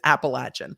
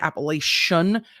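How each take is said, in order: First: The word is said the local way. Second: The word is said the outsider way. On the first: The speaker calls it right. "it's Appalachian" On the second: The speaker calls it wrong. "if you say Appalachian, you are doing it wrong"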